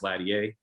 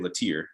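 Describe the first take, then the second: First: The name is said the Louisiana way. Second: The name is said the North Carolina way. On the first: This is how the family's place of origin says it. "my family's originally from Louisiana, so it's always Latier" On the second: This is how people in one home state say it. "North Carolina people say Latier"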